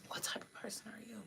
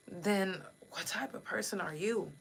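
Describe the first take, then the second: First: Unvoiced whispered repeat. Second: Said in the usual way. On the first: Real, not acted. Host repeats the question to viewers as a whisper. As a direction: breathe the question out, much softer.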